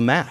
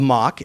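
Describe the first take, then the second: First: The vowel is the American pronunciation. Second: The vowel is not the American pronunciation. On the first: "that's how the Americans pronounce it" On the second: "as you say in the book"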